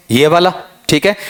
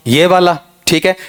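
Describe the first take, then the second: No difference in how they are said.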